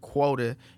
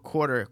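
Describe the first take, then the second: First: It is said in a Southern accent. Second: It is said in a standard accent.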